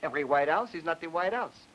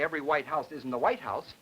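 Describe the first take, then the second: First: The final 'White House' is stressed on 'House'. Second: The final 'White House' is stressed on 'White'.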